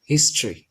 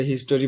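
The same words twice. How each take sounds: First: হিস্ট্রি in two syllables, "HIS-tri", falling; correct pronunciation. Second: হিস্টোরি in three syllables, "his-to-ri"; common pronunciation. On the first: Teacher modelling the correct form, হিস্ট্রি as "his-tri". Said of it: "এটা সঠিক উচ্চারণ হচ্ছে". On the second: Teacher quoting what most people say, হিস্টোরি as "his-to-ri". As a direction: keep the "o" vowel in হিস্টোরি: "his-to-ri". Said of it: "আমরা আসলে হিস্টোরি বলি". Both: Shown as a demonstration.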